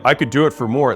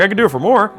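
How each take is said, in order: First: It sounds flat, blunt and serious. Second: It sounds light, playful and joking. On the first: The seller seems rude and pushy. The speaker calls it wrong. "of course someone's gonna be like, well, this guy's a dick" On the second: The buyer laughs and closes the deal. The speaker calls it right. "it sounds a lot different, ... You'll get a laugh"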